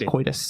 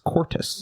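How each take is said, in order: First: The middle has an oy sound without R. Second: The middle has an or sound with R. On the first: This is the usual pronunciation. "instead of saying coitus" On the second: Someone else mispronounced it this way. "he said cortus. C O R T U S"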